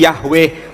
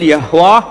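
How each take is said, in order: First: The name ends with an 'eh' vowel. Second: The name ends with an 'ah' vowel. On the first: The speaker calls it wrong. "Kadang dilafalkan keliru" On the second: The speaker calls it right. "Yang betul"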